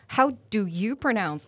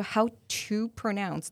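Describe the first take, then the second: First: "How do you pronounce" said slowly, each word spaced out; slow careful phrase. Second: "How to pronounce" dragged very slowly, word by word; very slow phrase. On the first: English teacher contrasting two phrases, slow and careful. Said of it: "两个意思不一样". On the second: Teacher showing the second phrase to listeners, very slow. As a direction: stretch out "How to pronounce" deliberately. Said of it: "可是当你说". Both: Shown as a demonstration.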